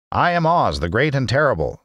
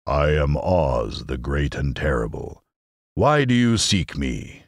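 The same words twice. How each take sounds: First: High, frightened little man; timid, quavering old man; trembling voice. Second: Slow, low solemn proclamation rising on the question; deep, ponderous wizard's announcement; solemn, imposing voice. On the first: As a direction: announce the grand title in a high, fearful voice. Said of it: "in a trembling voice". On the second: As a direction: intone it slowly as a great and terrible wizard. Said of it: "it said solemnly". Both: Acted.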